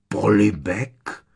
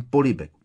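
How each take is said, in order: First: Louder, drawn-out rising "Polibek?"; incredulous repetition. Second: Said in the usual way. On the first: A narrator's reading. Uncle echoing nephew's odd word, incredulous. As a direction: stretch the word into a stunned question. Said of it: "opakoval strýc Vernon a oči mu povylezly z důlků".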